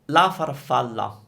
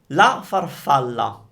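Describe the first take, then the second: Both takes have the same delivery.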